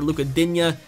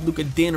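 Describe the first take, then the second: First: The surname ends in a longer 'dinya' sound. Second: The surname ends in a short 'din' sound. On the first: "as you guys want me to pronounce it" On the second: "I believe it's actually pronounced Din"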